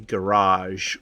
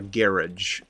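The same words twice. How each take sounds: First: It is said with an American pronunciation. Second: It is said with a British pronunciation.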